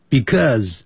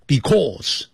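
First: "Because" as bi-cause, falling; correct because. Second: "because" with a hard s and flat stress; wrong because. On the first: 老师示范正确because. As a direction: say "Because" with a light bi. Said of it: "这样念就可以了". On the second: 老师示范错误because. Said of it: "不要念成because". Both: Shown as a demonstration.

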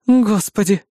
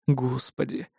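First: Resigned Господи! with a higher sighing fall; exasperated groan. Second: Lower, much softer Господи, under the breath; dismayed murmur. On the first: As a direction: sigh out Господи! as if doomed. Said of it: "Обречённо выдохнув". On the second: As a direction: mutter Господи, in quiet dismay. Dismayed at tattooed girl. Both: A narrator's reading.

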